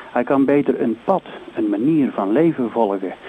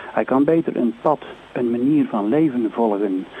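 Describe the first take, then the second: No difference in how they are said.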